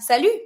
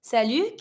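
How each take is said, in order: First: Salut ends on the vowel, no T sound; teacher showing the silent T. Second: Salut rising, the T dropped; teacher repeating salut, T dropped; salut with silent T. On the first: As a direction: say salut with no final T. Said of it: "You don't pronounce the T". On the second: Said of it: "careful when you pronounce it". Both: Shown as a demonstration.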